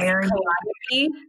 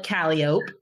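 First: It uses the ordinary, standard pronunciation. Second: It uses the local pronunciation. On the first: This is how the word is normally said elsewhere. "There's a city that's Calliope" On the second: This is how local people say the name. "but we call it Calliope"

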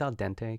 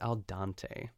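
First: The word 'dente' is said with a 'den' sound. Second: The word 'dente' is said with a 'dan' sound. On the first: The speaker calls it right. "it's al dente. Can you say it that way?" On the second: The speaker calls it wrong. "She said al dante. Shame on you"

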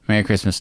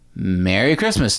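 First: It is said flatly, without feeling. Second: It is said earnestly, with real feeling.

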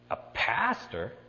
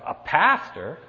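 First: It is said at a normal, quieter volume. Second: It is said noticeably louder.

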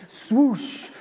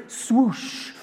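No difference in how they are said.

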